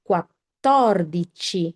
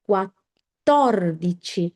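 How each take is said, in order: The two takes are said the same way.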